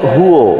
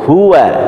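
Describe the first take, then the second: First: The final vowel sounds like a rounded 'o'. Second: The final vowel sounds like an open 'a'. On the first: The speaker calls it wrong. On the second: The speaker calls it right.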